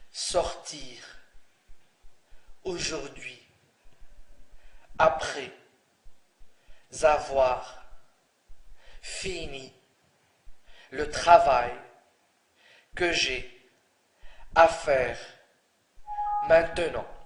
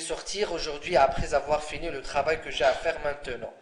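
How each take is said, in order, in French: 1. La phrase est prononcée lentement. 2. La phrase est prononcée rapidement. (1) "si je vous donne cette phrase doucement" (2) "si je la donne rapidement"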